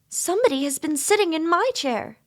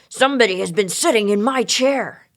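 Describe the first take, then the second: First: It is said in a sweet voice. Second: It is said in a great gruff voice.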